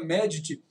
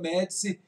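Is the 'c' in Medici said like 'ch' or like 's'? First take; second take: ch; s. First: The 'c' sounds like 'ch' before the 'i'. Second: The 'c' sounds like 's' before the 'i'. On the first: This is how it is said in Italy. "na Itália pronuncia como se fosse uma letra T" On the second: This is how it is said in Brazil. "aqui no Brasil fala Médici"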